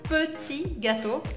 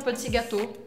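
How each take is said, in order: First: The vowel in petit is said with rounded lips. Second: The vowel in petit is said with spread lips. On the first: The speaker calls it right. "se fala petit gâteau, petit, aqui tem biquinho" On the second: The speaker calls it wrong. "essa receita não chama petit gâteau"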